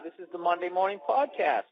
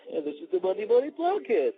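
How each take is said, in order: First: Intro rising into a lift on PODCAST; a little excited. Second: Exaggerated, higher swoop on the show title; goofy, slurred echo of an excited announcement; mock excited replay. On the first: Real, not acted. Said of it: "I had a little excitement in my voice". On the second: Shown as a demonstration. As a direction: parody your own excited intro. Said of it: "my voice went up as if to say".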